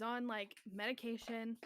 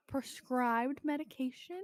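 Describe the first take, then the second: First: Said in the usual way. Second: PRESCRIBED said slowly and pointedly; pointed emphasis. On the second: Real, not acted. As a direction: lean into the mic on "prescribed" to make it clear. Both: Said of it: "a whole inch closer to her microphone".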